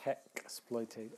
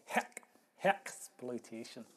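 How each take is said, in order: First: Said in the usual way. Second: Mock Scottish accent, punching HECK; lightly put-on Scottish accent on "heck, hexploitation". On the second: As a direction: imitate a Scot, leaning on "heck". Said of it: "as the Scots say".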